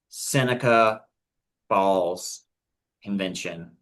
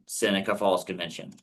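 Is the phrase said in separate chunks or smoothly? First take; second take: chunks; smoothly. First: It is said slowly, broken into separate parts. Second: It is said smoothly at normal speed.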